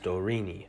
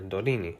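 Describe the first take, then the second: First: The middle consonant is an English R. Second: The middle consonant is a tapped R. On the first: "the English R is not used" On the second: "or tapped R"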